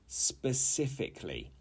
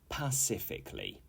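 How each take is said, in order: First: The word begins with an s sound. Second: The word begins with a p sound. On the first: The speaker calls it right. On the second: The speaker calls it wrong.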